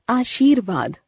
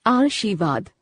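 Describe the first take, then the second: First: आशीर्वाद said as "aashirvaad" with the r before v, falling; teacher gives the right aashirvaad; correct form. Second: आशीर्वाद said as "arshivad" with the r moved forward; teacher shows the wrong arshivad; wrong form. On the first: Teacher to students, giving the correct pronunciation. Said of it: "शुद्ध". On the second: Teacher to students, demonstrating the wrong pronunciation. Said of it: "अशुद्ध". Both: Shown as a demonstration.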